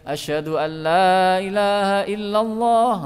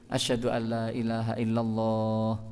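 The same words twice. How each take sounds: First: The phrase is said aloud in a full voice. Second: The phrase is said quietly, almost under the breath. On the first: It is the public call itself. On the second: It is a private recitation before the call.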